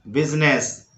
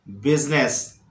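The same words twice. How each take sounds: The two takes are said the same way.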